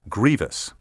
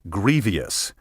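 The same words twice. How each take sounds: First: The word is said with two syllables. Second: The word is said with three syllables. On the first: The speaker calls it right. "the proper pronunciation has two, not three syllables" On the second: The speaker calls it wrong. "often mispronounced"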